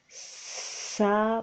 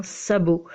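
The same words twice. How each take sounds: First: SABOT stretched out, long S, held B, long final O; slow dictation. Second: Said in the usual way. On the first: Shown as a demonstration. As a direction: draw out each sound of "sabot" for a child writing it. Teacher dictates word sound by sound.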